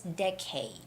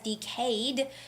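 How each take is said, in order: First: The stress is on the first syllable. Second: The stress is on the second syllable. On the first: The speaker calls it right. "Decade with the first syllable stress" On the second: The speaker calls it wrong. "some people might read this as decade"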